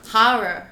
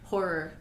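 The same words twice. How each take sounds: First: It is said in a New York accent. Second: It is said in a Canadian accent.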